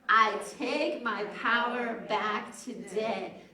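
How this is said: It is said firmly, with strong conviction.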